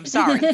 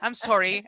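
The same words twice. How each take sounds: First: It is said in a general American accent. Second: It is said in a Canadian accent.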